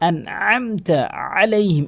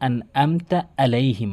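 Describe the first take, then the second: First: The middle consonant is a pressed throaty ain. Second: The middle consonant is a plain glottal stop. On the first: The speaker calls it right. "এভাবে চাপ দিয়ে বলতে হবে" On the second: The speaker calls it wrong. "অধিকাংশ ... হামজার উচ্চারণ করে ফেলে"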